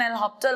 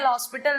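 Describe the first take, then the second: First: The name sounds like 'lopital', without the s. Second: The name sounds like English 'el hospital'. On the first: The speaker calls it right. "Correct pronunciation एल हॉस्पिटल होता है" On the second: The speaker calls it wrong. "एल हॉस्पिटल नहीं होता है"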